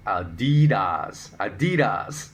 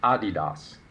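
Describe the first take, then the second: First: Adidas stressed hard on the middle syllable; American pronunciation of Adidas. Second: Adidas stressed on the first syllable; original German pronunciation. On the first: Host showing American usage, Adidas said as uh-DEE-das. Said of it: "known to most Americans as". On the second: Host posing a quiz word, Adidas said as AH-dee-dahs. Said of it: "that is completely incorrect pronunciation". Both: Shown as a demonstration.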